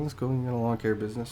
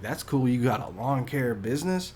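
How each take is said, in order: First: It sounds dismissive and unimpressed. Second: It sounds genuinely impressed and surprised.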